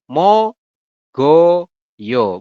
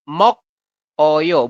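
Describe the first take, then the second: First: The consonant starts the second syllable, linked forward. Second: The consonant closes the first syllable, then splits. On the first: The speaker calls it right. "Jadi kita bacanya adalah" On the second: The speaker calls it wrong.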